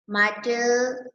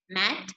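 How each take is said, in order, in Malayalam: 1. അവസാന t-ക്ക് ശേഷം ഒരു അധിക സ്വരാക്ഷരം ചേർക്കുന്നു. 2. വാക്ക് അവസാന t-യിൽ വൃത്തിയായി അവസാനിക്കുന്നു. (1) "don't read like that" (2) "How to read mat"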